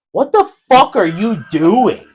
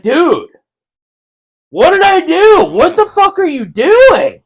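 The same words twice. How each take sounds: First: Loud, slow, drawn-out indignant question; mock-outraged retold challenge; retold indignation. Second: High, loud, slow outraged yell; squealed, drawn-out retold outrage; retold mad. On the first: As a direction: demand an explanation, raised and slow. Retold reaction to being punched. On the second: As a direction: protest in a high mock-angry shout. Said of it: "I got mad. I'm like".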